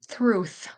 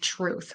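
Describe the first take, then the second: First: It begins with a th sound. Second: It begins with a t sound. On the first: The speaker calls it wrong. "they'll put the T H where the T should be" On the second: The speaker calls it right. "instead of"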